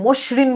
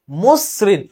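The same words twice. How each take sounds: First: "মসৃণ" as mosh-rin; wrong sh sound. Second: "মসৃণ" as mos-srin, hissing s; s sound with stop. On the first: Teacher rejecting a reading, "মসৃণ" as mosh-rin with sh. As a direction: say "মসৃণ" with sh in place of s. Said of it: "তুমি কিন্তু মসৃণ বলতেছো না". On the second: Teacher showing the s sound, "মসৃণ" split mos - srin. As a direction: say "মসৃণ" with s, pausing after mos. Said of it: "একবার থামছো এবং এস এর মতো". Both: Shown as a demonstration.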